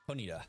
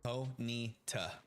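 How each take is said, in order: First: The syllables run together smoothly. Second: The syllables are said separately. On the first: The speaker calls it wrong. "Almost like you're just rolling the name right on through" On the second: The speaker calls it right. "That's how I say it too"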